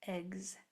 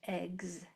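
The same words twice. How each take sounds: First: It ends with a voiced gz sound. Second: The same.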